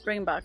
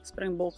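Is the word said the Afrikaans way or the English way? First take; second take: English; Afrikaans. First: The word is said with an English pronunciation. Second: The word is said with an Afrikaans pronunciation. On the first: "in English" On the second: "in Afrikaans"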